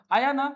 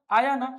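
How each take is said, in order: Both takes have the same delivery.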